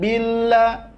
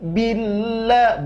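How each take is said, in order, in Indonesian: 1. Huruf L yang ganda diucapkan ringan, tanpa penekanan. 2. Huruf L yang ganda diucapkan dengan penekanan. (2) "harus ada penekanan suara atau nabroh namanya"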